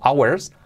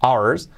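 First: "hours" as AU-WERS with a W, rising; the avoided "hours", two syllables with W; wrong W sound. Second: "Hours" as AU-ERS, no W; correct pronunciation. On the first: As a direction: say "hours" with a W in the middle. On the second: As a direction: say "Hours" with a silent H and no W. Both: Shown as a demonstration. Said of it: "Fijaos que no digo hours".

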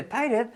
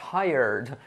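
First: "tired" as two syllables, "TAI-red"; Spanish mispronunciation. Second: "tired" as one glide, "TAI-erd"; native pronunciation. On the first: Teacher showing what natives don't say, Spanish mispronunciation. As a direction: sound a full "red" in "tired". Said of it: "no dice tired". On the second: Teacher showing what natives say, native pronunciation. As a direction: blend "tired" into "tyerd", no "red". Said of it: "dice tired". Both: Shown as a demonstration.

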